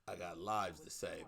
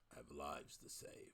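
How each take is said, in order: First: It is said in his normal voice. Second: It is said in a put-on voice.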